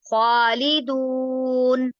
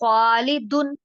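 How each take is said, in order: First: The vowel before the final n is long. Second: The vowel before the final n is short. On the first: The speaker calls it right. "वाव उसको लंबा करने के लिए आया है" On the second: The speaker calls it wrong. "वाव ना पढ़ूँ, तो ये गलत हो गया ना?"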